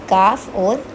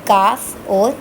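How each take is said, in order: The two takes are said the same way.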